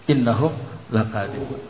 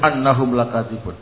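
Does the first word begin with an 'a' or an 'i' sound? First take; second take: i; a. First: The first word begins with an 'i' vowel. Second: The first word begins with an 'a' vowel. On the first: The speaker calls it right. "hamzanya wajib dikasrah" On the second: The speaker calls it wrong. "Enggak boleh"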